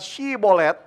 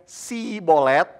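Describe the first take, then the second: First: The word begins with a sh sound. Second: The word begins with a plain s sound. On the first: The speaker belongs to the group that can say it. The speaker calls it right. "Kalau mereka tidak bisa mengucapkan Shibolet" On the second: The speaker is revealed as an outsider. The speaker calls it wrong. "tapi mengucapkannya Sibolet, maka ketahuan dia pasti orang Efraim. Karena orang Efraim susah ngomong Shi"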